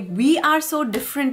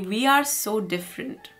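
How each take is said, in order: First: The tone sounds excited and upbeat. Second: The tone sounds resigned and discouraged. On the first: The difference is something to enjoy. "It is exciting" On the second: The difference is a hopeless problem. "You know, what to do?"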